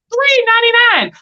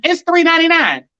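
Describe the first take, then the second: First: Much higher, disbelieving echo of the price; incredulous repeat. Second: Said in the usual way. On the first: Real, not acted. Repeating the watermelon price to viewers, much higher, in disbelief. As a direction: say the price back like you can't believe it.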